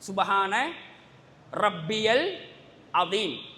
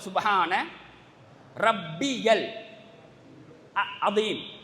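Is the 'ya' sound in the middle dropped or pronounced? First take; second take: pronounced; pronounced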